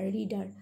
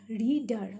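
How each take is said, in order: First: Said in the usual way. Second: "reader" split into re and dar; syllable by syllable. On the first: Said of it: "reader means the person". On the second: Shown as a demonstration. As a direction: say "reader" as two parts, re, dar. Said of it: "Okay, two syllables".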